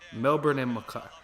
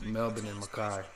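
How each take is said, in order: First: The place names are said with an American accent. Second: The place names are said without an American accent.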